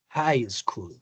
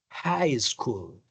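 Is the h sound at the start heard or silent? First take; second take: heard; heard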